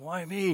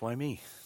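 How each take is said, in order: First: It is said in an angry tone. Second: It is said in a humbled, grateful tone.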